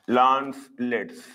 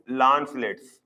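First: LANCELETS slow, split into lance and lets; slow repetition. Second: Said in the usual way. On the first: Shown as a demonstration. Teacher repeating the common name for students, slow and separated. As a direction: draw out "Lancelets" in two separate parts.

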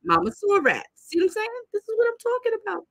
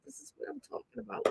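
First: High, emphatic "This is what I'm talking about"; exasperated exclaim. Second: "This is what I'm talking about" said much softer, near whisper; hushed aside. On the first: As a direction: throw the line up high in exasperation. Exasperated pointing out to viewers. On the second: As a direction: drop to a hushed, knowing aside. Drops to aside. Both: Real, not acted.

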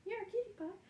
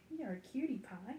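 First: Much higher cooing on cutie. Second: Said in the usual way. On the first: Real, not acted. Owner coos at the puppy in high baby talk.

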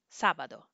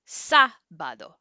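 First: Said in the usual way. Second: Sábado with a loud, drawn-out SÁ; exaggerated stress. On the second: Shown as a demonstration. Teacher showing the accent in Sábado, exaggerated first-syllable stress. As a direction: punch and stretch the first syllable of Sábado, slowly. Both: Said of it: "To exaggerate".

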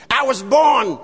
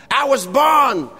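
Both takes have the same delivery.

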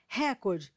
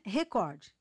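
First: "Recorde" stressed on RE; wrong stress. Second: "recorde" stressed on COR, re-COR-de; correct stress. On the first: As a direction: hit RE in "Recorde". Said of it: "forma incorreta". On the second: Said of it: "O correto é recorde". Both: Shown as a demonstration.

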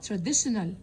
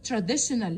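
No difference in how they are said.

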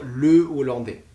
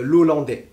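First: "Le Hollandais" with le kept whole; "Le Hollandais" as two words, le, o-lan-dé; no elision. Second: "l'Hollandais" run together as lo-lan-dé; wrong elision. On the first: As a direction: separate le from o in "Le Hollandais". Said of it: "Vous allez dire". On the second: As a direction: elide the article into "l'Hollandais", no break. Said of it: "Vous n'allez jamais dire". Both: Shown as a demonstration.

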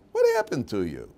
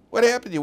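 First: Said in the usual way. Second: Higher, louder pleading rebuke; almost shouting What happened to you; exasperated cry. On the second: Shown as a demonstration. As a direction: throw it at them in dismay. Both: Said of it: "repeated rebuke to listeners".

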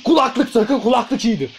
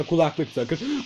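First: Higher put-on voice; high-voiced urging. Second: Slow, softer instruction; understated request. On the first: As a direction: urge it in a raised, playful pitch. Repeats request in high voice. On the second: Real, not acted. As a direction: ask it softly, taking your time. First headphone request, understated.

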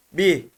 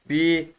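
First: Bi with a short i; short, unextended Bi; short vowel. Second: Bi with a long, held i; drawn-out Bi; lengthened vowel. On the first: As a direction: keep the i of Bi brief. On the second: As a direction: stretch the i of Bi. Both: Shown as a demonstration. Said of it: "Uzatıyor sadece".

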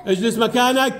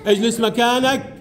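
The two takes are said the same way.

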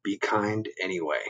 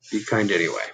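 First: Gentle reminder. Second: Said in the usual way. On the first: Shown as a demonstration. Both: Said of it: "what do we say?".

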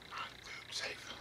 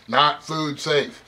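First: A hushed, slow repeat of the warning; whispered warning. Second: Slow, each word weighted; slow emphatic warning. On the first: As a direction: whisper it slowly. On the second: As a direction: spell out the warning. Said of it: "It's not food safe". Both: Shown as a demonstration.

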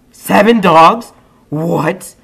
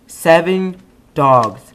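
First: Loud, slow, rising disbelief; surprised. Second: Slow, loud, falling flat statement; stunned statement. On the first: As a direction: ask it in total disbelief. Surprised at the number. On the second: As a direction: state it, letting it sink in. Repeats in disbelief. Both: Real, not acted.

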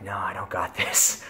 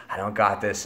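First: Whispered no, half panicked. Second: Said in the usual way. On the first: Retold or imitated. Tripping guy answers his own pep talk, scared whisper.

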